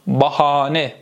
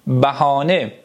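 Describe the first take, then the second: First: "بهانه" with open back first a; Turkish pronunciation. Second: Slow "بهانه" with short front first a; Persian pronunciation. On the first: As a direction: say "بهانه" as bahaane, Turkish style. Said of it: "یه مقداری بالا پایین داره". («بهانه» به ترکی، باهانه) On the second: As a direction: say "بهانه" as bæhaane, Persian style. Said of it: "یعنی بهانه". («بهانه» به فارسی، بَهانه) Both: Shown as a demonstration.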